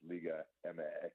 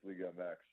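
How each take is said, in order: First: The letters MX have Spanish letter names. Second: The letters MX have English letter names. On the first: This is how the other side says it. "For them, it's" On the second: This is how the speaker's own side says it. "for us it's"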